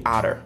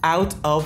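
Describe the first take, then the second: First: The two words are joined into one. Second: The two words are said separately.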